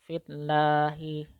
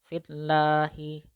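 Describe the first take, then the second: The two takes are said the same way.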